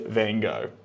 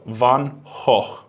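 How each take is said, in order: First: The name is said with an American accent. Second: The name is said with a Dutch accent. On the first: "if you want to say it in an American way" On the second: "If you want to say his name in a Dutch accent"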